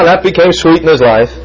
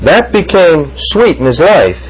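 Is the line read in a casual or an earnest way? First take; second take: casual; earnest. First: It is read lightly and carelessly. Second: It is read slowly and with weight. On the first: The words are treated as a passing remark. The speaker calls it wrong. "don't just read this, oh, la, la, la" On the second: The words describe a real and deep experience. The speaker calls it right. "Read it this way"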